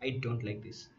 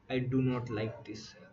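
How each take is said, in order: First: Do not is contracted into one syllable. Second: Do not is said as two full words. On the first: The tone is casual. "instead of don't" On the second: The tone is formal. "Do not"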